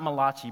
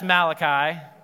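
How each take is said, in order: First: The name is said with an Italian-sounding pronunciation. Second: The name is said with a plain English pronunciation. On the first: The speaker calls it wrong. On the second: The speaker calls it right. "But that's Malachi"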